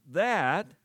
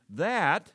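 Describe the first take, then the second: First: "that" punched high and loud; stressed that. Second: "that" said high and loud, falling; stressed that. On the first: Preacher stressing the key word to congregation: loud punched "that". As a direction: hit the word "that" hard. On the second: Preacher driving home the purpose word: loud stressed "that". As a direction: land hard on "that". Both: Shown as a demonstration. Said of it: "I emphasize the word T H A T".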